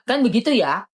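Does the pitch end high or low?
low. The ending stays low, not like Pak Hakim.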